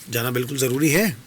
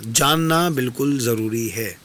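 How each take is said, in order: First: "जाना बिल्कुल ज़रूरी है?" asked back as a doubting question; questioning echo. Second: "जानना बिल्कुल ज़रूरी है" said slowly as a flat, falling statement; firm statement. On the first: Guest echoing Triveni's words back as a question. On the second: Triveni telling the guest slowly and firmly, falling. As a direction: lean on "जानना", falling at the end. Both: A narrator's reading.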